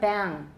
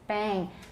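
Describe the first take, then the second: First: The vowel stays plain before the final sound. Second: The vowel shifts in quality before the final sound. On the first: The speaker calls it wrong. "it's not bang" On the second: The speaker calls it right. "but bang 绝对有"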